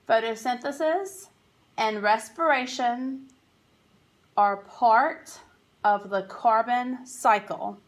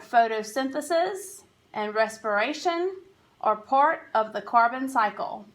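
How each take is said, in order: First: It is read slowly. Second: It is read at normal speed.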